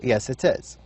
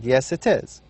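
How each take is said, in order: The two takes are said the same way.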